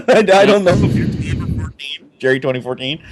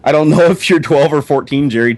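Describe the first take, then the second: First: High, laughing through the words; can't stop giggling while reading. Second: Said in the usual way. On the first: Real, not acted. Rereads quote laughing.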